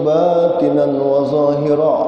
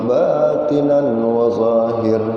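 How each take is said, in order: First: The last word ends with a final vowel. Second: The last word ends on a final consonant. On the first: "ahli tajwid mengaras" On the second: "kenapa dibaca wa zahir"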